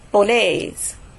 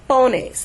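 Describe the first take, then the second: First: The stress is on the second syllable. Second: The stress is on the first syllable. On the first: The speaker calls it right. "the stress is going to be where the accent is" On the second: The speaker calls it wrong. "not pones"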